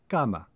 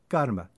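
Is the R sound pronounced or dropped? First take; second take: dropped; pronounced. First: The R sound is dropped. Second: The R sound is pronounced.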